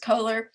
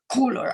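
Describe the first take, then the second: First: The name is said with an American vowel. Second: The name is said with a German vowel. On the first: "I just say the American way" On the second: "there's a German way of saying it that's something like"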